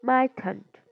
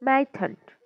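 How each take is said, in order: No difference in how they are said.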